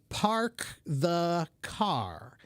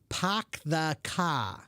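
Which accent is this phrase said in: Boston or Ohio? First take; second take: Ohio; Boston. First: It is said in an Ohio American accent. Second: It is said in a South Boston accent. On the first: "in Cincinnati, Ohio, I'll say park the car" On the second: "In South Boston, they might say park the car"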